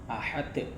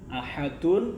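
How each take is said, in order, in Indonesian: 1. Kata itu berhenti pada bunyi d yang memantul. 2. Kata itu berakhir dengan suku kata -un yang penuh.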